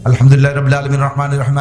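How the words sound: The verses run together in one breath. It leaves no gap for God to answer. The speaker calls it wrong. "আপনি এক নিঃশেষে মারিয়ে দিয়েছেন"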